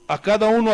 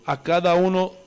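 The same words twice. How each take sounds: First: A cada uno said louder, with a push on uno; emphatic repeat. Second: Said in the usual way. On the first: Shown as a demonstration. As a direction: hammer home a cada uno louder the second time. (a cada uno repetido más fuerte, marcando uno) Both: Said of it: "repite la frase de la cita".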